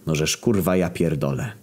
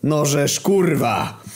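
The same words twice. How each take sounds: First: Resigned curse at usual volume; understated exasperated despair. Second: High, drawn-out enraged curse; livid, exasperated yell; furious shout. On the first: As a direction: give up and swear, defeated. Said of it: "załamał się trener". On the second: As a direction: swear at the top of your temper, stretched out. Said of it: "krzyknął Lewandowski wkurwiony na maksa". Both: A narrator's reading.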